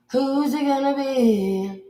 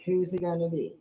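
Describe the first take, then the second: First: Slow, high, stretched question; drawn-out taunt. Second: Said in the usual way. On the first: Acted. Picking a stunner victim, slow high drawn-out taunt. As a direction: draw out each word like a challenge.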